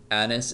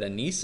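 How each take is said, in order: First: "anise" said as AN-iss; "anise" with short, unstressed ending; AN-iss pronunciation. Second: "anise" said as uh-NEECE; "anise" ending like "niece"; ah-NEECE pronunciation. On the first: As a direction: stress the first syllable of "anise". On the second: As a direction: stress the last syllable of "anise". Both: Shown as a demonstration. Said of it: "I don't think that anise is a thing".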